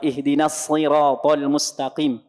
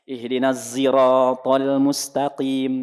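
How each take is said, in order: First: Siratal begins with an emphatic S sound. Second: Siratal begins with a Z-like sound. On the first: This follows the commonly memorized recitation. "Kalau kita hafaz anasim ya pakai sod" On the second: This follows an alternative recitation tradition. "Di sebagian riwayat ada yang pakai zai"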